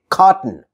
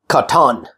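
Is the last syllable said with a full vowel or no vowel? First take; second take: no vowel; full vowel. First: No vowel is heard between t and n. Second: A clear vowel is heard between t and n. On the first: The speaker calls it right. "I say cotton" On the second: The speaker calls it wrong. "I don't say cotton"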